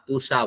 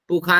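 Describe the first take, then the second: First: The middle consonant is a retroflex sh sound. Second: The middle consonant is a kh sound. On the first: The speaker calls it right. "पूषा बोलना" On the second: The speaker calls it wrong. "पूखा नहीं बोलना"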